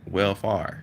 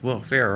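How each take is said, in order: First: The second syllable sounds like "far". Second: The second syllable sounds like "fair". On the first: The speaker calls it wrong. "if you take the F off, you got R. So that's why I was like, well far" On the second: The speaker calls it right. "But she was like, no, it's welfare"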